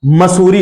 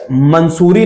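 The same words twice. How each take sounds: First: मसूरी with no n before the s; correct pronunciation. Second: मंसूरी with an n before the s; first syllable "man" in मंसूरी; wrong pronunciation. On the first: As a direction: say मसूरी as "ma-soo-ree". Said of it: "मसूरी होता है". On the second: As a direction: say मंसूरी as "man-soo-ree". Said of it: "मंसूरी नहीं होता". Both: Shown as a demonstration.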